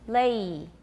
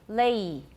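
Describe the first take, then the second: No difference in how they are said.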